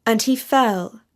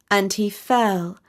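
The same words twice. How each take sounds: The two takes are said the same way.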